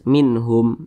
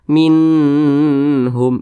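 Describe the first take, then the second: First: The n sound is short and clear. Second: The n sound is drawn out and held. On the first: The speaker calls it right. "tapi dibaca jelas" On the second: The speaker calls it wrong. "Minhum itu salah"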